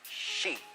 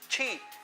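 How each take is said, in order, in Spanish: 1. La palabra empieza con sonido sh suave. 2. La palabra empieza con sonido ch. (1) "Ese es el sonido que necesitamos" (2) "no es chi"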